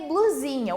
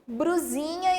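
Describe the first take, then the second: First: The b is followed by an l sound. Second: The b is followed by an r sound. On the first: The speaker calls it right. "O correto é o quê? Blusinha" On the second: The speaker calls it wrong. "fala brusinha"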